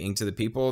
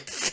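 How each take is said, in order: First: It is rushed, so the k nearly disappears. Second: It is slower, with the k clearly emphasized. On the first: The speaker calls it wrong. "You say it way too fast. It sounds like you said it again, into the people" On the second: The speaker calls it right. "you gotta emphasize the K"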